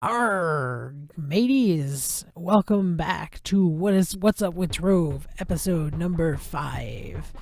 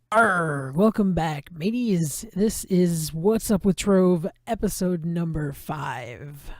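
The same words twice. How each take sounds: First: Slow growly pirate intro. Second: Louder, slower pirate intro. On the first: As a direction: ham it up like a pirate captain. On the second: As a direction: roll it out like a pirate captain. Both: Pretend. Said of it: "Pirate voices".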